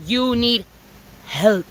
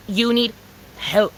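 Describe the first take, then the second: No difference in how they are said.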